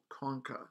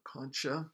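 First: It is pronounced the Latin way. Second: It is pronounced like the Spanish name. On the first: It names a bone in the nose. "to pronounce it in the Latin way, the way you would hear it in a medical situation" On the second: It names a seashell or a person.

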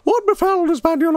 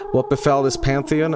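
First: It is read in a put-on owl character voice. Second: It is read in the speaker's ordinary voice.

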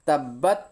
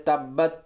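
No difference in how they are said.

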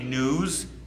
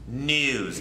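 First: The vowel is a plain 'oo' sound. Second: The vowel is a gliding 'yoo' sound. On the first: "Instead of I got big news"

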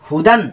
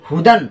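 The two takes are said the same way.

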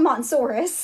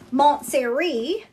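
First: The name sounds like 'Mont-sore-us'. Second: The name sounds like 'Montessori'. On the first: The speaker calls it wrong. "that's what I used to call it... that's not the way you pronounce it" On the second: The speaker calls it right. "this is called the um"

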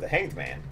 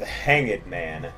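First: It is said in a casual, offhand way. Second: It is said in a dramatic, emphatic way.

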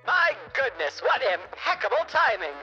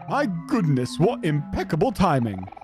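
First: It is said in an old radio-style voice. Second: It is said without a radio-style voice.

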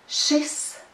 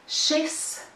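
No difference in how they are said.

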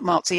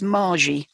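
First: The middle consonant is a z sound. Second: The middle consonant is a j sound. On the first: The speaker calls it wrong. "I mispronounced her name. It's not Marzi" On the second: The speaker calls it right. "it's Margie"

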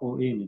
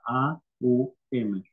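First: The word is said as two separate sounds. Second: The word is said as three separate sounds. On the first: The speaker calls it wrong. "El Om no se pronuncia O-M" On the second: The speaker calls it right. "se pronuncia A-U-M"

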